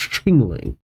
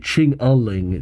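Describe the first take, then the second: First: The name is said with two syllables. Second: The name is said with three syllables. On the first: The speaker calls it right. "but it's Chingling" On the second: The speaker calls it wrong. "I always want to say Ching-a-ling"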